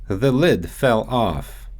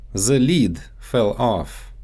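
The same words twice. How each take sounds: First: Said in the usual way. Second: Lid said as "leed" and The as "ze"; Russian-accented "lid" stretched to leed; The lid with a Russian z and long ee. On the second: Shown as a demonstration. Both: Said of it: "so they often get mixed up in English".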